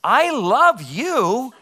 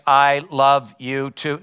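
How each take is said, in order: First: High, very slow, swooping "I love you"; hammed-up, lilting sweet talk; mock declaration of love. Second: Slow, even-pitched robot monotone; drugged-robot reply, word by word; robotic voice. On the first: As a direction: draw it out like a put-on lover's declaration. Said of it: "eventually I say to her". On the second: Acted. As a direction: answer mechanically, like a brainwashed robot. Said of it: "in a very robotic voice".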